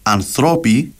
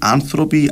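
First: The stress is on the second syllable. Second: The stress is on the first syllable. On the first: This is the everyday Cypriot form. "Θεωρεί λάθος εντός εισαγωγικών να πεις ανθρώποι" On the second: This is the expected form in the official language. "το αναμενόμενο είναι να έχεις τον τόνο στην προπαραλίγουσα, δηλαδή άνθρωποι"

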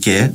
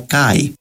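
First: The word ends in a single plain vowel. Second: The word ends in an 'ai' diphthong. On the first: Ancient speakers did not pronounce it this way. "στα αρχαία ελληνικά δεν προφέρετουν και" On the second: Ancient speakers pronounced it this way. "αλλά καί"

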